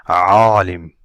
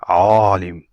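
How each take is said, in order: Both takes have the same delivery.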